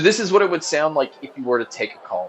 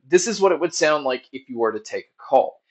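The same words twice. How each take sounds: First: The voice is heard over background crowd noise. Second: The voice is heard without background crowd noise. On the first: "here's the mic test with a crowd noise being played" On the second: "here is the mic test using the Wings two"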